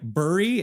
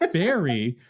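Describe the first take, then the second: First: The first vowel is a 'u' sound. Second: The first vowel is an 'e' sound. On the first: "Why shouldn't it be like bury" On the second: "Why does the U make an E sound here?"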